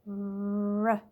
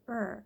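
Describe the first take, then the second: First: The r sound has no vowel before it. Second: The r sound has a vowel before it. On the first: The speaker calls it right. "The beginning R sound is more of a R" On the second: The speaker calls it wrong. "that would be more of a middle R sound or an ending R sound"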